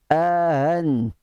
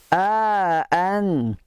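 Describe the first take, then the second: First: The second glottal stop is softened, not fully pronounced. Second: Both glottal stops are pronounced clearly and distinctly. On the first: "Ataupun dibaca secara tashil" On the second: "Itu namanya bacaan tahqiq. Memanjangkan hamzah yang pertama dan dijelaskan bunyi dua hamzah itu"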